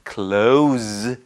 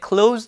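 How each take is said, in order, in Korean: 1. 이 단어는 윙 하는 z 소리로 끝납니다. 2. 이 단어는 쉿 하는 s 소리로 끝납니다. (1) "z 발음이 됩니다" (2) "가까운이라는 뜻을 가질 때는 close"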